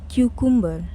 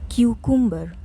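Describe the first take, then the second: The two takes are said the same way.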